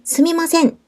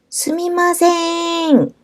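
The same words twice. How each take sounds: First: The word is said short and clipped. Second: The word is drawn out long. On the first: Asking someone to wait a moment. "이렇게 짧게 짧게 말하면" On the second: Calling someone's attention, like 'over here'. "이렇게 길게 말하면"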